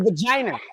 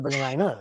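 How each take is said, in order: First: The word is said with an added R sound. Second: The word is said without any R sound.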